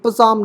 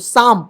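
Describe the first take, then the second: First: It starts with a p before the s. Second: It starts directly with an s sound. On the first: The speaker calls it wrong. "पसाम नहीं" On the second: The speaker calls it right. "तो साम पढ़ते हैं"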